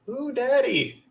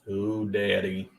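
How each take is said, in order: First: It is said in a high-pitched voice. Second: It is said in a normal-pitched voice.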